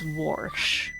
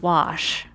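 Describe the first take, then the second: First: The word is said with an r before sh. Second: The word is said with no r sound. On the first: "A lot of people pronounce the word wash as warsh" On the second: "the word wash"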